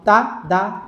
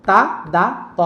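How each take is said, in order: The two takes are said the same way.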